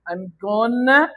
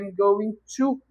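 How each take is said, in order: First: The phrase is reduced and said quickly. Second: The phrase is said in full, more slowly. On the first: "I'm gonna é muito mais rápido" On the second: "Você faz mais movimento para falar"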